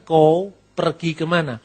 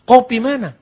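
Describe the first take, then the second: First: The phrase is said in full, words distinct. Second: The phrase is said fast, squeezed into two words. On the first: "Kamu mau pergi kemana?" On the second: "Saking cepatnya"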